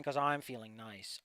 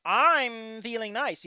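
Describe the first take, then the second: First: Soft, low and slow; low mumble. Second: Very slow, louder and higher; drawn out. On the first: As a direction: mutter it under your breath. First take low and soft. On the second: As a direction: stretch every word smugly. Repeated slowly and louder. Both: Pretend.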